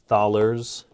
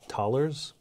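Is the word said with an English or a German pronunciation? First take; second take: English; German. First: It is said with an English-style pronunciation. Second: It is said with a German-style pronunciation.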